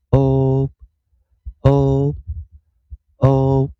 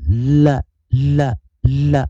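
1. l 听起来像元音 o。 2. l 是用滑动的舌头发出的。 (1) "它轻读的时候，我们是念o o o" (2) "就是dark l 的时候，我们是念l l l，舌头有滑动"

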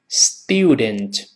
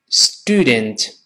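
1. t 后面的元音是带滑音的 'yoo' 音。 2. t 后面的元音是单纯的 'oo' 音。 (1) "英式发音这个字母u 就是发u 这个双元音" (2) "把ye 去掉，只剩下u 这个声音，所以美国人这么读"

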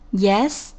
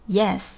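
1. 句尾音调上升，像问句。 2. 句尾音调下降，像陈述或回答。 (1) "我们看B 的第一个Yes，这个是声调的语气，表示一个回应，什么事儿。" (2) "第二个Yes 是一个降调的语气，表示对他说的这句话的一个回答。"

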